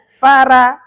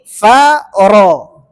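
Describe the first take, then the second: First: "fara" with a thin ra and open a; wrong reading. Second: "faro" with a heavy ro darkened toward o; correct heavy ro. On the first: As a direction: say "fara" light and flat. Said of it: "jangan dibaca fara". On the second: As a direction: thicken the ra in "faro". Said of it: "Ini faro". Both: Shown as a demonstration.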